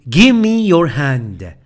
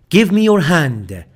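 Both takes have the same delivery.

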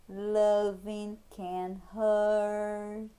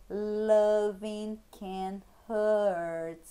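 The two takes are said the same way.

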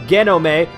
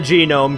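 First: It is pronounced like Japanese romaji. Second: It is pronounced like the English word. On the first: The speaker calls it wrong. "pronounce it as if it were, you know, Romaji or something. And that was not the way to go" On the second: The speaker calls it right. "It's a genome because I'm an idiot"

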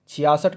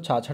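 First: The word is said as chhiyasath. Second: The word is said as chhachhath. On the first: The speaker calls it right. "छियासठ कहते हैं इसको" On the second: The speaker calls it wrong. "छाछठ नहीं कहते"

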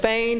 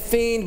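First: The vowel sounds like 'ay'. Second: The vowel sounds like 'ee'. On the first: The speaker calls it right. "but it's feigned" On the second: The speaker calls it wrong. "I want to say fiend"

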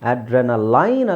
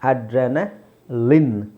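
First: The last syllable has an eye vowel. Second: The last syllable has a short i vowel. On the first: The speaker calls it wrong. "ಅಡ್ರೆನಲೈನ್ ಅಲ್ಲ" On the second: The speaker calls it right. "ಲಿನ್"

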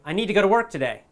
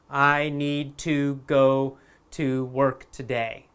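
First: 'Need to' is blended into one 'needta'. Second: 'Need to' is said as two separate words. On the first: This is how people really talk. "But in real life, people would say" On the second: This is the textbook form. "This is how we would say it in a textbook or in a school"

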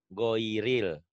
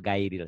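First: The first vowel sounds like o. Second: The first vowel sounds like ai. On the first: The speaker calls it right. "Goiril ya bacanya" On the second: The speaker calls it wrong.

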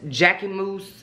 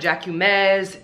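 First: The last syllable sounds like 'mus'. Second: The last syllable sounds like 'mez'. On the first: The speaker calls it right. "It's pronounced Jacquemus" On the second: The speaker calls it wrong. "Not Jacquemez"

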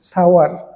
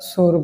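First: The vowel is a gliding 'ow', like 'sow-er'. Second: The vowel is a plain 'oh', like 'sore'. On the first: The speaker calls it right. "সেটার সঠিক উচ্চারণ হচ্ছে সাওয়ার" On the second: The speaker calls it wrong. "যেটাকে আমরা সোর বলি"

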